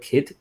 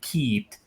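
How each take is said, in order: First: The vowel is short, as in kit. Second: The vowel is long, like in keet. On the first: "the word kit" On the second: "most Irish people they tend to drag the I like quite long"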